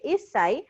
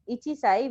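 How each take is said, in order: First: "issai" with no chi and a held s; correct contracted pronunciation. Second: "ichi sai" with full chi; uncontracted pronunciation. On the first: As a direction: lengthen the s in "issai". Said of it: "we say issai". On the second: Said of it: "we don't pronounce it". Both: Shown as a demonstration.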